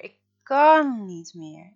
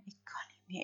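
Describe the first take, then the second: First: Drawn-out loud sobbing plea; wailing, breaking. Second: Whispered, all breath gone after crying; broken whisper. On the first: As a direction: let it burst out, slow and loud. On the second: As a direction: barely breathe the words out. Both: A narrator's reading. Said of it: "begint Freek te huilen".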